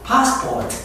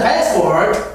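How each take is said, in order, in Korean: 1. 영국식 억양으로 말해요. R 발음이 없어요. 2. 미국식 억양으로 말해요. R 발음이 있어요. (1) "이렇게 영국에서는 발음합니다" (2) "미국에서는"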